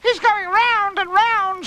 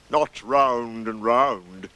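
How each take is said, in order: First: Very high, loud, drawn-out squeal; high-pitched wonder; much impressed. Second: Very slow, drawn-out correction; slow, dour donkey voice; Eeyore. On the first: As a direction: marvel slowly in a little one's high voice. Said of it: "said Roo, much impressed". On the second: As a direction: stretch each word ponderously. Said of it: "said Eeyore". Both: Acted.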